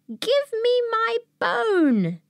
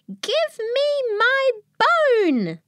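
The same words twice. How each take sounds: First: It is said somewhat louder. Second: It is said loudest of all.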